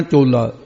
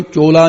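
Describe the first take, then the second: First: ਚੋਲਾ a little tightened, clipped and falling; slightly tightened. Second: ਚੋਲਾ said loosely with an open, slack o; the mistaken slack ਚੋਲਾ; wrong loose form. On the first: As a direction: press ਚੋਲਾ together lightly. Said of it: "ਥੋੜਾ ਜਿਹਾ ਕੱਸ ਕੇ". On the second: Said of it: "ਇਹਨੂੰ ਚੋਲਾ ਨਹੀਂ ਕਹਿਣਾ". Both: Shown as a demonstration.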